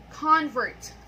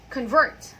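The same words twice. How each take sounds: First: "Convert" loud on the first syllable, falling after; "Convert" as a noun, front-stressed. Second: "Convert" loud on the second syllable, rising; "Convert" as a verb, back-stressed. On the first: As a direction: hit the full first vowel of "Convert". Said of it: "we stress the first syllable". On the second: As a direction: reduce the start of "Convert", punch the end. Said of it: "stressing the second syllable". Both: Shown as a demonstration.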